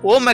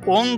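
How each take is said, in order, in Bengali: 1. শব্দটি বন্ধ ম ধ্বনি দিয়ে শেষ হয়। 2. শব্দটি খোলা অনুনাসিক গুঞ্জন দিয়ে শেষ হয়। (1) "ମନ୍ତ୍ର ଓମ୍ ଏକା ଉଚ୍ଚାରଣ କରିବେ" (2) "କେବେ ହେଲେ ମଧ୍ୟ ଓଂ କହିବେ ନାହିଁ"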